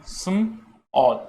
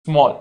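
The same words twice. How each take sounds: First: "स्म और" as the two parts of small, 'sm... all', pause between; split into sounds. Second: Said in the usual way. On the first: Shown as a demonstration. ("स्म और": small को तोड़कर, 'स्म... ऑल') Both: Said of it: "दो sound से मिलके बना है".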